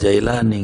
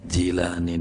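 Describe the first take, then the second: First: The first syllable sounds like 'jai'. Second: The first syllable sounds like 'ji'. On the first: The speaker calls it wrong. "Enggak ada Jailani" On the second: The speaker calls it right. "Adanya Ji"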